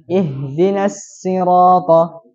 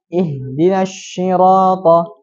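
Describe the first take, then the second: First: "sirata" dengan sin tipis, lambat; shad jadi sin. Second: "sirata" dengan bunyi shin, lambat; shad jadi shin. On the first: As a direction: contoh salah: shad dibaca sin. (bacaan salah huruf sin) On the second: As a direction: contoh salah: shad dibaca shin. (bacaan salah huruf shin) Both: Shown as a demonstration. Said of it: "yang harusnya dibaca nasi".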